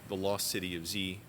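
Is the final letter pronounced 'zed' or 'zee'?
zee. The last letter is said as 'zee', American-style. "in America. Uh, we just call it that"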